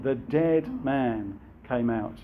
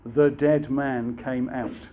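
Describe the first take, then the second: First: "dead" leaned on in "The dead man came out.", slow; stress on dead. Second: "The dead man came out." read slowly, each word weighted; slow emphatic quote. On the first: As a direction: press down on "dead" and slow the phrase. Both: Shown as a demonstration. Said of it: "John's making that point".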